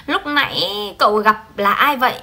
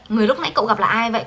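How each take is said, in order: First: Said in the usual way. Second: Quick, even read-through of the fixed sentence; a fast teacher's reading of the fixed line; fast corrected reading. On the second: Shown as a demonstration.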